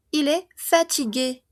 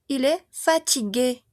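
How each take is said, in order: Both takes have the same delivery.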